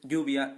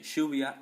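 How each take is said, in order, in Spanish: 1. La ll suena como una y. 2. La ll suena como un sh. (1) "en vez de decir"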